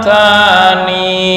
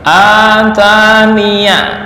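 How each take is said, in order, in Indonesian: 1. Kata ini berakhir dengan bunyi 'i' pendek. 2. Kata ini berakhir dengan suku kata 'ya' yang bersuara. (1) "Cara yang kedua" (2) "wasol dengan menfathah ya"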